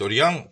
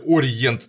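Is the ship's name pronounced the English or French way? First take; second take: French; English. First: The name is pronounced the French way. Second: The name is pronounced the English way. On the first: "говорит «Ориан» по-французски" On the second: "«Ориент» на английский манер"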